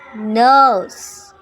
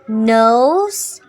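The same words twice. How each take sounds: First: It is said with a Singlish long monophthong. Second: It is said with a standard English diphthong.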